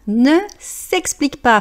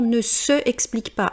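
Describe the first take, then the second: First: The 'se' is shortened and joined to the vowel. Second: The 'se' is said in full before the vowel. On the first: The speaker calls it right. "donc ne s'explique pas" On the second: The speaker calls it wrong. "J'entends toujours des gens qui lisent"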